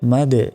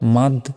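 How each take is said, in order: First: The final d ends with a small bounce. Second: The final d ends flat without a bounce. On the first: The speaker calls it right. "শেষে একটা ধাক্কা দিয়ে পড়তে হবে" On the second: The speaker calls it wrong. "মাদ না বলে"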